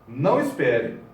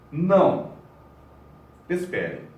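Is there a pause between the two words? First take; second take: no; yes. First: The two words run together without a pause. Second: There is a pause between the two words. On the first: Tell the listener not to wait. "ou não" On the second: Refuse, then ask the listener to wait. "Uma vírgula pode ser uma pausa"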